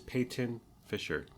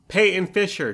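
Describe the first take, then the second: First: The T sound is clearly pronounced. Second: The T sound is dropped. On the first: The speaker calls it right. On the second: The speaker calls it wrong.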